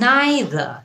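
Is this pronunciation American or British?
British. It is said with a British pronunciation. "এটা হচ্ছে British উচ্চারণ"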